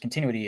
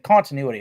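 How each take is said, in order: First: The word is said quickly and loosely. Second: The word is said slowly and carefully. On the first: "it's just like it just rolls out" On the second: "I have to really focus and almost slow it down"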